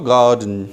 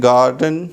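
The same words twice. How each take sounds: First: गार्डन with silent R, "gaa-dn"; गार्डन, long first vowel straight into D; British pronunciation. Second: गार्डन with the R sounded, "gar-dn"; गार्डन, clear R before the D; American pronunciation. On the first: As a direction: drop the R in गार्डन. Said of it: "that is British". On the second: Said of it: "यहाँ क्या बोलते हैं?". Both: Shown as a demonstration.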